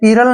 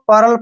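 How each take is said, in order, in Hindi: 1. यह शब्द दो अक्षरों में बँटा है, pee-ral। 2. यह शब्द एक अक्षर में बोला जाता है, pearl। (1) "आपने पीरल नहीं पढ़ना है इसको" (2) "पर्ल पढ़ेंगे"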